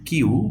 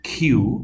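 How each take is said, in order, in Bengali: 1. k ধ্বনিটি অল্পপ্রাণ, মুখ থেকে বাতাসের ঝলক ছাড়া। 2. k ধ্বনিটি মহাপ্রাণ, মুখ থেকে বাতাসের ঝলক সহ। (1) "নট কিউ" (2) "ক, খ মিলিয়ে যে উচ্চারণটা"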